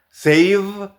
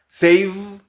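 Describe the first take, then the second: Both takes have the same delivery.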